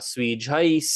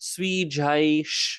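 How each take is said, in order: First: The word ends with an 's' sound. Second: The word ends with an 'sh' sound. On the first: "with an S sound and not an S H sound" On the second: "the sh consonant sound"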